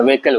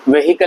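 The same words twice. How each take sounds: First: व्हीकल as ve-kal, no h; silent h. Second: व्हीकल as ve-hi-kal, h sounded; common mispronunciation. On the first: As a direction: squeeze व्हीकल into two syllables. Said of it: "व्हीकल होता है". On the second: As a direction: put an audible hi inside व्हीकल. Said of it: "व्हीकल नहीं होता है". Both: Shown as a demonstration.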